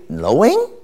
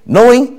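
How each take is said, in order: First: It is said as a question, rising. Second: It is said as a statement, falling.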